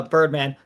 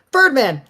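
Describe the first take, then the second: First: Said in the usual way. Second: Name yelled high and loud; sharp high call-out of a name; yelling. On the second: Acted. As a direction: shout the name to scold.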